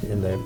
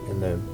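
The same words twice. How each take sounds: The two takes are said the same way.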